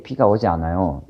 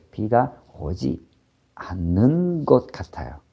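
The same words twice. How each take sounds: First: Quick, flat and certain, no softening; a blunt Korean statement with no hedge. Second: Quick, tentative hedge on 것 같아요; a humble, tentative Korean sentence; softened, humble guess. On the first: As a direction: state it bluntly as plain fact. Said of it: "You don't say it like that". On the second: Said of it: "You say". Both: Shown as a demonstration.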